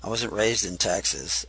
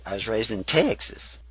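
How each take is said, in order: First: Said in the usual way. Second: Southern accent on Texas. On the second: Shown as a demonstration. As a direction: say "Texas" the southern way, vowel stretched. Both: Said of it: "that's how I say Texas".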